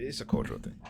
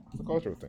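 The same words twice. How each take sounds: First: Breathless whisper, much softer; whispered aside. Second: Voiced, higher. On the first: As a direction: drop to a tired whisper: "It's a cultural thing.". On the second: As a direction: say "It's a cultural thing." aloud, lifting the pitch higher. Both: Real, not acted. Weary aside repeated twice.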